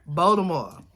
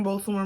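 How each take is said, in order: First: "Baltimore" as "Bol-da-more", no T; local Baltimore way. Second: "Baltimore" said carefully, with a clear T. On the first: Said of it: "that's how we say it". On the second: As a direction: say "Baltimore" the outsider way, T included. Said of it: "I'll say it like that". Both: Shown as a demonstration.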